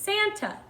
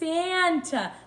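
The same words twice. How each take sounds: First: The word is said at normal speed. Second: The word is said slowly, sounds stretched out.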